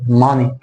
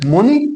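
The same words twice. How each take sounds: First: ماني as "mah-nee", the teacher's correction; corrected vowel in ماني. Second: Rounded first vowel in موني, pitched as a question; موني as "moo-nee", the mistaken reading; wrong vowel in موني. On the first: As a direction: say ماني with an open "ah" in the first syllable, MAH-nee. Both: Shown as a demonstration. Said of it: "لا، بتقول ماني".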